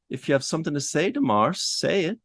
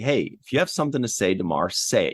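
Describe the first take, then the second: First: It is said in an unworried manner. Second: It is said in a tough manner.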